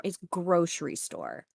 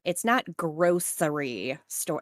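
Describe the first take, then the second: First: "grocery" in her preferred way; correct pronunciation. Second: "grocery" in the disliked way, slowly; wrong pronunciation. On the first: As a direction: say "grocery store" the proper way, settled. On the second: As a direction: say "grocery store" the way she hates, drawn out. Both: Shown as a demonstration. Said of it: "Just like grocery store".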